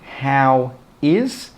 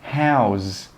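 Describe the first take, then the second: First: The two words are said separately. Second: The two words are joined into one. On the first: The speaker calls it wrong. "We don't say how is" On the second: The speaker calls it right. "We join them together and we say how's"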